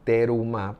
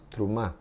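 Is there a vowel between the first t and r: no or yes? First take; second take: yes; no. First: A clear vowel is heard between t and r. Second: The t and r run together without a vowel. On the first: The speaker calls it wrong. "Algunas personas dicen terumá" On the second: The speaker calls it right. "lo correcto pronunciar es trumá, sin la e tan enraizada"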